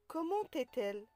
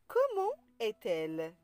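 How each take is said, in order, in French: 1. Un son t relie comment à est. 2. Aucun son t ne relie comment à est. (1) "On ne dit pas" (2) "Donc, on dit"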